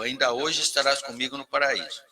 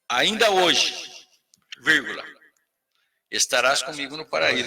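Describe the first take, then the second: First: The phrase runs on without a break after hoje. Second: There is a break after hoje before the rest. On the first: It happens today. "Eu vou ler literalmente" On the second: It does not say when it happens. "se você colocar assim, ... vírgula"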